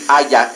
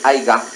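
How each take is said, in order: First: The word has no g sound in it. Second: The word has a g sound in it. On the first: The speaker calls it right. "voy a decir haya" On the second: The speaker calls it wrong. "en lugar de aiga"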